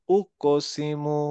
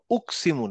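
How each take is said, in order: First: Slow "ওকসিমু", ক echoing as a rounded o; rounded qalqalah. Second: "উকসিমু" with ক run straight into স; without qalqalah. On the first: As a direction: bounce the ক in "ওকসিমু" with round lips. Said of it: "গোল হলো". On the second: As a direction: say "উকসিমু" quickly joined, no bounce. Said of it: "উকসিমু না". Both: Shown as a demonstration.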